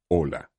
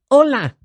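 First: The voice resonates deep in the chest. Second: The voice resonates mainly in the nose.

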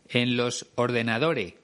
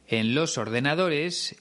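First: The final s sound is dropped. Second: The final s sound is clearly pronounced. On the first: "ella pronuncia" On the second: "En vez de decir"

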